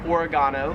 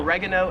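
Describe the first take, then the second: First: "oregano" stressed on the third syllable, o-re-GAH-no; Australian pronunciation. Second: "oregano" stressed on the second syllable, o-REG-ano; American pronunciation. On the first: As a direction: hit a long GAH in "oregano". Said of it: "However, here in Australia". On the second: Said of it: "We would call it oregano". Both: Shown as a demonstration.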